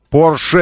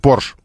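First: The word ends with a final vowel sound. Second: The word ends on a consonant with no final vowel. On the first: The speaker calls it right. "это фамилия, нам говорить нужно Порше" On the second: The speaker calls it wrong. "не Порш"

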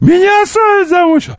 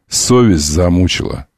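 First: It is shouted very loudly and angrily. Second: It is said calmly, at normal loudness.

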